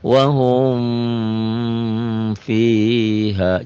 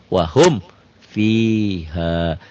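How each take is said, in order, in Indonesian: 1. Bunyi m ditahan sebelum kata berikutnya. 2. Bunyi m dilepas dengan jelas dan singkat. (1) "jangan wahum fiha, jangan. Ya, jangan ditahan" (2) "Jelas bunyi mimnya"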